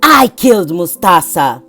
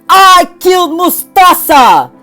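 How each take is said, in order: First: It is said quietly. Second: It is said loudly, shouted.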